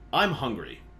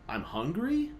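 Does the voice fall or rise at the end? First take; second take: fall; rise. First: The pitch falls at the end. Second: The pitch rises at the end. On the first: It is a plain statement. "anytime a normal person would drop in tone" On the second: The statement sounds like a question. "he will raise in tone"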